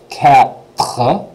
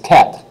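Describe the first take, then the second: First: It is said slowly, in two syllables. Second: It is said quickly, almost as one syllable. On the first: "if I say it really slow, it's two syllables" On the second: "But if I say it quick"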